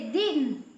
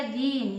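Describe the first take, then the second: First: दिन with a short i. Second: दीन with the ee held long. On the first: Teacher showing how a matra changes meaning, short vowel. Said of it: "गलत मात्रा यदि कहीं लग गई". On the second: Teacher showing the changed word with big matra, long vowel. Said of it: "बड़ी की मात्रा लगा दिए". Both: Shown as a demonstration.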